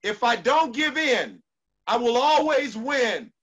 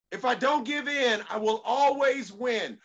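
First: Shouted mantra. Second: Said in the usual way. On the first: Shown as a demonstration. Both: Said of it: "say this one with me".

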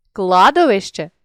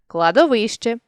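First: Кладовище with КЛА stressed; stress on first syllable. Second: Кладовище with ВИ stressed; stress on third syllable. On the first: Teacher shows a stress variant, кладовище stressed on КЛА. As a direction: punch the opening КЛА of кладовище. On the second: Teacher shows a stress variant, кладовище stressed on ВИ. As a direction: lean on ВИ inside кладовище. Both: Shown as a demonstration. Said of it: "наголосивши той чи інший склад".

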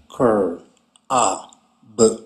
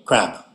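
First: "cur, a, b" as separate sounds with pauses; sounded out. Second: Said in the usual way. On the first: Shown as a demonstration. Teacher showing students how to blend, "cur, a, b" sounded apart. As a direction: sound out "cur, a, b" slowly, piece by piece. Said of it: "two sounds at the beginning". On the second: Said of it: "practice some words".

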